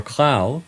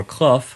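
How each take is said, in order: First: "clow" spoken to rhyme with bow, a long ow sound. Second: "clough" spoken to rhyme with rough, ending in f. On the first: Lecturer showing one possible reading of the name, "clow" rhyming with bow. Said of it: "rhyming with bow". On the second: Lecturer showing another reading of the name, "clough" rhyming with rough. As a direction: say "clough" as kluff, short u and an f sound. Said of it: "rhyming with rough". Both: Shown as a demonstration.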